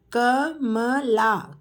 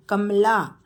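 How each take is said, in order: First: Kamala drawn out slowly; slow teacher model of Kamala. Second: Said in the usual way. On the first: Shown as a demonstration. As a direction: stretch Kamala syllable by syllable. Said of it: "teacher models name slowly". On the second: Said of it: "quick plain repeat".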